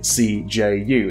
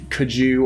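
First: It is spoken as three separate letters. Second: It is spoken as a single word. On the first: The speaker calls it right. "as I'm saying the letters, like it's an acronym" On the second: The speaker calls it wrong. "or Kaju or something like that"

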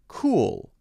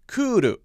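First: It has one syllable ending in a held l. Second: It has two syllables with a tapped r. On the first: "you would just say, cool" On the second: "again, two syllables"

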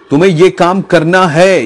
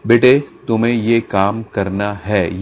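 First: It is said loudly, almost shouted. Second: It is said in a low, serious voice.

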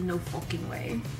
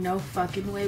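First: The phrase is said in a British accent. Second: The phrase is said in an American accent. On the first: This imitates a British celebrity's way of saying it. "we say no fucking way" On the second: This is the ordinary way of saying it. "instead of saying no fucking way"

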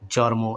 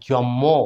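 First: An r sound comes before the m. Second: A doubled m sound is in the middle. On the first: "আমাদের এলাকায় ভুলভাবে এভাবে বলে থাকি locally" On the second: "অনেকে বলি জম্ম, ময় ম বলে থাকি"

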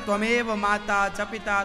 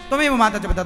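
First: The phrase is said slowly and carefully. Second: The phrase is rushed through very quickly. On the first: This is how a devoted person would pray. "ऐसे नहीं करता" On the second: The person is in a hurry to finish praying. "इतनी जल्दी है उसे"

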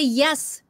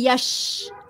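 First: The word begins with a 'y' sound. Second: The word begins with a 'sh' sound. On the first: The speaker calls it right. "Now say yes" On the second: The speaker calls it wrong. "don't say yes, not S-H"

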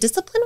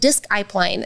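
First: The word has its usual everyday pronunciation. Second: The word is sounded out to match its spelling.

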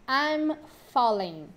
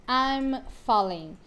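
The two takes are said the same way.

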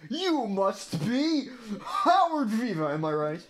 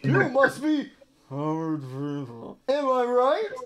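First: It is said in a character voice. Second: It is said in a generic, ordinary voice.

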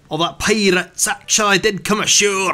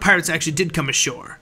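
First: It is spoken in a Scottish accent. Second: It is spoken in a plain, unaccented voice.

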